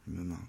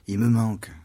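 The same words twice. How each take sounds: First: Much softer, almost to himself; quiet echo. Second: Lightly voiced lament, a bit louder; a hint of Magdalene crying out her loss; Mary Magdalene lamenting. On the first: Acted. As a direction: let it fall away to a murmur. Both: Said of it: "comme dit Marie-Madeleine".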